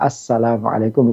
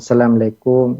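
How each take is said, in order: First: Every syllable of the greeting is said in full. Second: The greeting is clipped, with syllables dropped and merged. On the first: The speaker calls it right. "yang lebih tepat adalah" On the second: The speaker calls it wrong.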